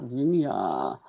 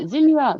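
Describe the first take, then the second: First: "Zinnia" mumbled much lower and softer; quiet mumble. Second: Said in the usual way. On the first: Shown as a demonstration. Trying out a viewer's name, quiet mumble. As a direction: murmur "Zinnia" to yourself, checking it. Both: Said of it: "Adventures of Z-, Zinnia".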